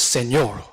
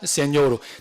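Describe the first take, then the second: First: It is said with a French accent. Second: It is said with a Korean accent. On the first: The speaker calls it right. "This is Señor" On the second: The speaker calls it wrong. "this is not Señor"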